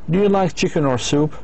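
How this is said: The voice rises twice, ending high. It asks for a yes or no answer. "the voice speaker of the speaker goes up twice"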